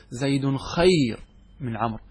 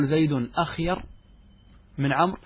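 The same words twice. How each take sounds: First: "خير" starting straight on the kh, drawn out slowly; lightened, hamza dropped. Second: "أخير" opening on a glottal "a"; full form with hamza. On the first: Teacher showing how Arabs lighten the word, hamza dropped. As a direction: say "خير" as "khayr", without the opening "a". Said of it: "نتخفف من الكلمة". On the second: Teacher giving the heavy original form, hamza sounded. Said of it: "فنحذف منها الهمزة". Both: Shown as a demonstration.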